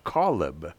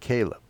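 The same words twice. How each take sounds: First: The name is pronounced the Hebrew way. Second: The name is pronounced the usual English way. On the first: This is the pronunciation the Hebrew dictionary gives. "according to the Hebrew dictionary, it should be pronounced Caleb" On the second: This is the pronunciation people here commonly use. "but we pronounce it Caleb"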